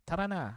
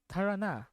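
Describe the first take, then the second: First: "Tara na" with a lightly tapped Tagalog r; imitated Tagalog line. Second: "Tara na" with an American-style r, higher pitch; non-native Tagalog accent. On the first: Streamer trying another version of the character's line, tapped Tagalog accent. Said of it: "she says lines like". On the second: Retold or imitated. Streamer quoting a Valorant character's line, non-native Tagalog accent. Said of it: "sounds like a Filipino who doesn't speak Tagalog".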